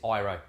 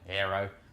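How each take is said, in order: First: The name is said with an Italian pronunciation. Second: The name is said with an Australian pronunciation. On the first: "in Italy, they pronounce this" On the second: "I'm Australian"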